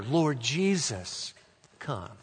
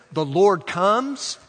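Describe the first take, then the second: First: Slow, softening plea; hushed, unhurried petition; prayer. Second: Slow, raised proclamation; higher, stretched-out declaration; announcement. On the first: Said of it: "or it's a prayer". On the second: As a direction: announce it slowly and firmly. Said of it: "an announcement". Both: Shown as a demonstration.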